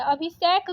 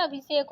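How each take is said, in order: First: अभिषेक ending in open "-shaik"; wrong vowel. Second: Said in the usual way. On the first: Shown as a demonstration. Teacher reading the error, अभिषेक with ai vowel. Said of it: "अभिषेक गलत दिया है". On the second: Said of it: "अभिषेक होता है".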